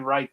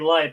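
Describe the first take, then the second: First: The word begins with an R sound. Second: The word begins with an L sound. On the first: "in Japan they say right" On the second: "they say light"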